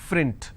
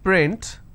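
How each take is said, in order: First: The word begins with an f sound. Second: The word begins with a p sound. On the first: The speaker calls it wrong. "lot of people pronounce this as frint. So that is where the mistake happens" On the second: The speaker calls it right. "if I have the word which is print"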